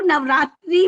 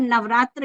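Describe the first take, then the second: First: नवरात्रि with a final "ee" vowel; common variant pronunciation. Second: नवरात्र ending in "-tra", no final "ee"; correct Sanskrit pronunciation. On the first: Speaker quoting what many people call the festival, common variant pronunciation. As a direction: say नवरात्रि ending in a clear "-tree". कई लोग नवरात्रि भी कह देते हैं. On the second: Speaker teaching listeners the pure form of the word, correct Sanskrit pronunciation. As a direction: say नवरात्र with a short "a" after the tr. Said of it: "इसका शुद्ध उच्चारण नवरात्र ही है". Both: Shown as a demonstration.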